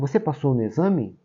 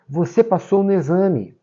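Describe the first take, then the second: First: It sounds like a question, rising. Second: It sounds emotional and excited.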